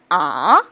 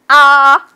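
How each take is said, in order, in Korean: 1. 음높이가 부드럽게 위로 올라가요. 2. 음높이가 높고 평평하게 유지돼요. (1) "이성은 와이퍼 동작처럼 부드럽게 올라가는 겁니다" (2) "일성은 두 팔 나란히. ... 그냥 강하게 해버려요"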